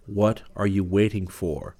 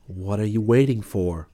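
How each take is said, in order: First: Slow, insistent voice from within; an urging voice inside your head; inner voice. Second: Insistent voice from within; an urging voice inside your head; inner voice. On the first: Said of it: "It was a movement that spoke like a voice". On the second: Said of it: "said the voice within me again". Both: Acted.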